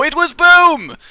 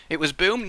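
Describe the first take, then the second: First: Loud, high winner reveal; announcing excitedly. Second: Said in the usual way. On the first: Shown as a demonstration.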